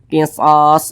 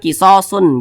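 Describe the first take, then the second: First: The word ends on a bare, silenced s. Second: The word ends with an added 'un' syllable. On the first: The speaker calls it right. "tapi qisas gitu" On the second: The speaker calls it wrong. "jangan kisosun, jangan"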